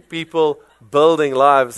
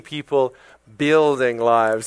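First: "building" with his own South African vowel; wrong, accented pronunciation. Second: "building" slowed, with a clear short i; corrected pronunciation. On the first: Preacher showing what he was told not to say, accented pronunciation. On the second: Preacher showing the correction he was told, careful pronunciation. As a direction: say "building" slowly as BIL-ding. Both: Shown as a demonstration. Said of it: "I was told it's not".

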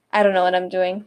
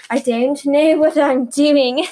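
First: Said in the usual way. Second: Loud, slow, badly faked British; awful British accent. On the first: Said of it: "what is this accent I am doing?". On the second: Podcaster mocking her own attempt, awful British accent. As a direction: drag it out in a hammed-up British accent. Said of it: "it sounds awful".

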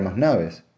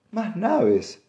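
First: Said in the usual way. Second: High-pitched heated echo. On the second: A narrator's reading. Wife repeats her husband's words, heated and high. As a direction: throw the words back, high and indignant. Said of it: "repitió ella acalorada".

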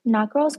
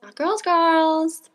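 First: Put-on "girls" opnieuw, lichte stijging; stress on girls. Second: Put-on "girls" slowly and higher, drawn out; slow stressed echo. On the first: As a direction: lean into "girls" the second time. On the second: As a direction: drag out "Not girls, girls" for emphasis. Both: Shown as a demonstration.

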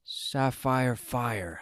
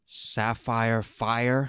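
First: Slow, flat repeating of the words; slow disbelief. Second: Slow, rising question of disbelief; slow incredulous. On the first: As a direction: drag it out in disbelief. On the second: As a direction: drag it out, incredulous. Zuko repeats again, incredulous. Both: Acted.

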